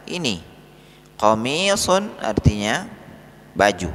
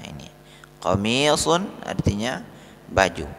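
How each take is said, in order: Both takes have the same delivery.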